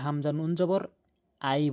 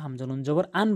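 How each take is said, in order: First: The syllable ends with a y sound. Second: The syllable ends with an n sound. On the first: The speaker calls it right. "আই বলতে হবে" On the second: The speaker calls it wrong. "আন বলা যাবে না"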